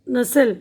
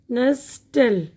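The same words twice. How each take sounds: First: नस्ल with no t, the s going straight into "al"; silent t. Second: नस्टल with the silent t wrongly sounded; wrong pronunciation. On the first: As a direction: say नस्ल as "nes-el", leaving out the t. (नस्ल, "ट" की आवाज़ के बिना) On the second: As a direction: say नस्टल slowly apart, with a clear t after the s. (नस्टल, बीच में "ट" की आवाज़ के साथ) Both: Shown as a demonstration. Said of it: "टी की आवाज़ नहीं आएगी इसमें".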